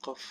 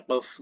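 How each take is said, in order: First: Said in the usual way. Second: "qaf" exaggerated in the throat; hammed-up throaty "qaf"; overdone qaf. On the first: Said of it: "biasa aja". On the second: Shown as a demonstration. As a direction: lay the q of "qaf" on too thick. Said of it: "Bukan yang qaf gitu ya".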